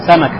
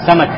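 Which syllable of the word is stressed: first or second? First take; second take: first; first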